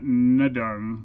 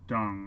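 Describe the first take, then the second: First: The name starts with an N sound. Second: The name starts without an N sound. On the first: The speaker calls it wrong. "not Nadung" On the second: The speaker calls it right. "My guess is there's a silent N"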